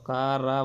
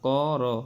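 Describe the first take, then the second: First: The syllables have a light, thin a vowel. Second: The syllables have a heavy, thick vowel. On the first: The speaker calls it wrong. "কা রা বলা যাবে না" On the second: The speaker calls it right. "মোটা করে পড়তে হবে"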